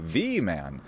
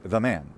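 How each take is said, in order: First: 'The' has a full vowel and its own accent. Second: 'The' is unaccented with a reduced vowel. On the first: The word stands as a full word, no longer a proclitic. "we're making the a full word and we're giving it a special kind of an accent on its own" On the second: The word leans on the noun as a proclitic. "the doesn't have any accent of its own. We can see that because the vowel is reduced"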